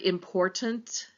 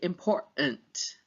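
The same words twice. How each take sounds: First: The middle t is pronounced as a clear t. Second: The middle t is replaced by a glottal stop.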